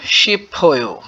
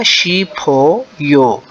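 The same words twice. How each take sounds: First: शिप हो यो run together like the Korean recording; native-like echo. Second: शी फो यो, very slow, each syllable apart. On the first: Teacher echoing the native speaker's reading. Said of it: "Korean इसको कैसे पढ़ते हैं". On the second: Teacher breaking down the word for students, very slow. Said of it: "तो ये ओ की बजाय फो बन जाएगा". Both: Shown as a demonstration.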